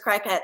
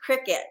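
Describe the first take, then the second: First: The word does not sound like cricket. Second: The word sounds like the insect cricket. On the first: The speaker calls it wrong. "but I thought it was Cricut" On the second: The speaker calls it right. "there's always an entire aisle of Cricut"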